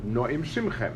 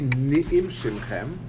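First: The first syllable has a full o vowel. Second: The first syllable has a brief shva vowel. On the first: The speaker calls it right. "It should be no'im shimchem. And that's the right way to say the dikduk" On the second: The speaker calls it wrong. "it shouldn't be ni'im shimchem with a shvona"

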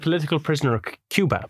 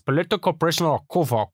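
First: It is said in the speaker's normal accent. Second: It is said in an imitated Cuban accent. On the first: "I said" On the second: "the way he says it is"

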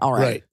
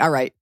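First: It is said with a Southern accent. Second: It is said with an East Coast accent. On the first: "Versus like" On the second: "It sounds very East Coast"

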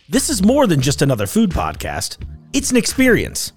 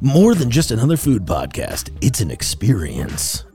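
First: It is said in his normal voice. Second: It is said in a put-on announcer voice.

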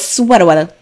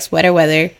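First: It is said in an exaggerated Saturday Night Live voice. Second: It is said in a plain, ordinary voice.

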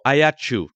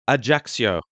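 First: The name is said the local Corsican way. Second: The name is said the usual French way.

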